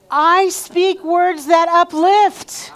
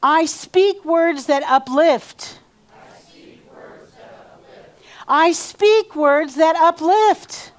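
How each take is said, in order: First: Slow, much higher and louder proclamation; standing, full energy. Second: Slow, higher and louder call to repeat; seated affirmation. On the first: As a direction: put your whole soul into every word. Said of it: "Put your energy into this". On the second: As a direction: lead the line for the room to echo. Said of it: "So say this after me". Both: Shown as a demonstration.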